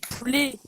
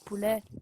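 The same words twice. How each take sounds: First: The final vowel is a closed e sound. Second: The final vowel is an open e sound. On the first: The speaker calls it right. "C'est dit poulet" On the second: The speaker calls it wrong. "pas poulet"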